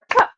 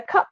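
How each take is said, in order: First: Cup set apart as a single beat; one beat. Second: Said in the usual way. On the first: Shown as a demonstration. Teacher showing any word works, Cup as one beat. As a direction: clap out Cup as one syllable. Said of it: "That's just one syllable". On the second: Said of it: "and I would say".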